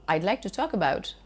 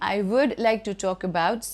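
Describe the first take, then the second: First: I would is shortened to one syllable. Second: I would is said as two full words. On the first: The speaker calls it right. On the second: The speaker calls it wrong. "instead of saying"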